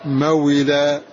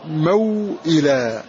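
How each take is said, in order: First: "موئلا" as ma-wi-la, no glottal stop; hamza dropped. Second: "موئلا" slowly as maw-ila, glottal stop before i; hamza pronounced. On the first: Teacher deleting the hamza, "موئلا" run together as mawila. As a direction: let w glide into i in "موئلا". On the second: Teacher showing the original word, "موئلا" slow with hamza pronounced. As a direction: draw out "موئلا", sounding the hamza. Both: Shown as a demonstration. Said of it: "ونحذف الهمزة فنقول موئلا".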